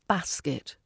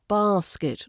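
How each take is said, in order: First: The first vowel is not a long 'ah' sound. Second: The first vowel is a long 'ah' sound. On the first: The speaker calls it wrong. "not basket" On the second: The speaker calls it right. "We've got an R sound"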